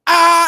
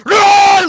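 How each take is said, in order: First: High, loud mock yell from up top; imitated shallow yell. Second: Big, high, very loud beastly roar; primal roar. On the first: Showing how his yelling fell short, imitated shallow yell. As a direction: yell it without any depth behind it. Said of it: "it came very from, like, here". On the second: Shown as a demonstration. Showing how it should be yelled, primal roar. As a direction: roar it out with everything behind it. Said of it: "Like, man, get primal".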